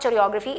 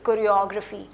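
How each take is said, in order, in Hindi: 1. choreography शब्द की शुरुआत ch की आवाज़ से होती है। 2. choreography शब्द की शुरुआत k की आवाज़ से होती है। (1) "इट्स नॉट च sound, it's not चोरियोग्राफी" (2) "it's कोरियोग्राफी"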